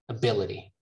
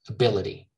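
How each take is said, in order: First: The t is a soft, quick flap. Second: The t is a soft, quick flap.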